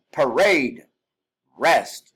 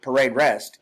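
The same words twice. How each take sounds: First: "parade" drawn out slowly, pause, then "rest" barked; pause before rest. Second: Said in the usual way. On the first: Shown as a demonstration. Instructor showing the pause before the execution command. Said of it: "have that pause between". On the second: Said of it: "It's not parade rest".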